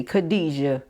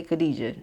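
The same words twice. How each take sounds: First: Khadijah with a relished throaty kh; Khadijah with flavor. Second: Said in the usual way. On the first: Shown as a demonstration. Repeating the lesson to viewers, relishing the name. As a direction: savor Khadijah, leaning into the first syllable. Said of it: "No, you gotta say Khadijah". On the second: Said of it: "You can't just say Khadijah".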